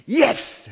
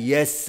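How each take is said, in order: First: It is said forcefully, with energy. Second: It is said plainly, without force.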